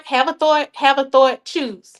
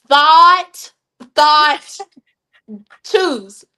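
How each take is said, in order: First: "thought" said like "thort" with an r; "thought" as "thort", r sound kept in; her own Southern way. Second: "thought" said clearly as "thot", no r, louder and careful; carefully fix "thought" to "thot" without the r; corrected pronunciation. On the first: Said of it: "I got a weird way of saying certain things". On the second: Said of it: "Let me get my Southern accent right". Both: Shown as a demonstration.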